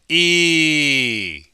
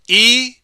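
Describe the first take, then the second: First: The vowel sound is held longer. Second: The vowel sound is held briefly. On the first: "The second one is longer" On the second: "The first one is short"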